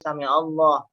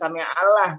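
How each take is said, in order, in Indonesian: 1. L dalam Allah terdengar tebal dan berat. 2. L dalam Allah terdengar tipis dan ringan. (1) "Ini tambah tebel, tafkhim" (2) "nggak boleh"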